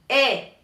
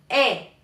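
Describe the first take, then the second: Both takes have the same delivery.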